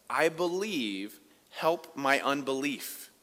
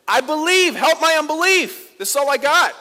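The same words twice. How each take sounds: First: Slow, hushed, a touch of tears; father begging Jesus, slow and subdued; quiet tearful plea. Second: Much higher and louder desperate cry; father crying out to Jesus for his son, anguished shout; crying out in tears. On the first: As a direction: plead softly, slowly, as if near tears. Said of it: "He was crying". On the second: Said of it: "cries out in tears". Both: Acted.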